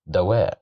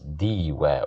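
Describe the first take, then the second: First: The first vowel is an a sound. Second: The first vowel is an i sound. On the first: The speaker calls it right. "We pronounce it as da because of the fatha" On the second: The speaker calls it wrong. "We can't pronounce it as diwa"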